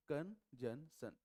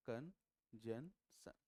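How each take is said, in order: First: "कंजंक्शन" slowly stretched, as the bad pronunciation; wrong "कंजंक्शन". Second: "कंजंक्शन" very slowly, C silent, rising; correct "कंजंक्शन". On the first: Teacher shows how students mispronounce "कंजंक्शन", slowly. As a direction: drawl "कंजंक्शन" like a careless student. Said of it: "सबसे गंदा बोलते हैं". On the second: Teacher models "कंजंक्शन" with C silent, very slowly. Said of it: "सी silent". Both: Shown as a demonstration.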